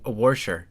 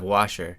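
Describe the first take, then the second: First: It is said in a Texas accent. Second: It is said in a standard accent.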